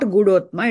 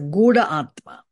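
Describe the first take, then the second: First: The two words merge into one word. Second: The two words stay separate, unmerged. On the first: The speaker calls it wrong. "it's not Gudhotma" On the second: The speaker calls it right. "it's a Gudha Atma"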